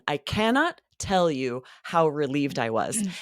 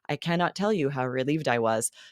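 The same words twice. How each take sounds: First: It is said with lively, expressive pitch. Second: It is said in a flat monotone. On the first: The speaker feels real relief. The speaker calls it right. "There was another thing I loved that you did" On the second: The feeling does not come across. The speaker calls it wrong. "if you say this in a monotone"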